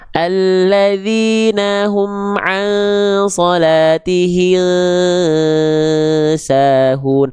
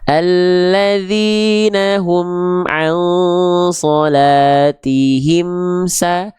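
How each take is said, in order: First: The m is blurred and not clearly closed. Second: The m is clearly closed with both lips. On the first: The speaker calls it wrong. "Kalau dia dibaca samar gini" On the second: The speaker calls it right. "Bibirnya nempel kan? ... Jelas kan?"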